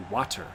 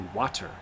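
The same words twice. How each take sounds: First: It has a clearly pronounced T. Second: It has a clearly pronounced T.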